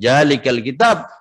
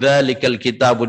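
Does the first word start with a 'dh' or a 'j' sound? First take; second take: j; dh. First: The first word starts with a 'j' sound. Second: The first word starts with a 'dh' sound. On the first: The speaker calls it wrong. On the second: The speaker calls it right.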